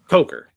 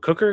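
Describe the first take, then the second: First: The first vowel sounds like the one in 'coke'. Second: The first vowel sounds like the one in 'cook'. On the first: The speaker calls it right. "it's Jalen" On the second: The speaker calls it wrong. "it's not Jalen Cooker"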